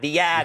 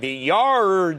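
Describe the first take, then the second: First: The r sound in yard is dropped. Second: The r sound in yard is pronounced. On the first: The speaker calls it right. "no, it's the yad" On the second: The speaker calls it wrong. "I'm going, the yard. No"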